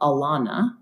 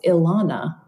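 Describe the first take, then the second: First: The name begins with a sound like 'an'. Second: The name begins with a soft I sound. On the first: The speaker calls it wrong. "like an at the beginning" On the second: The speaker calls it right. "like a soft I"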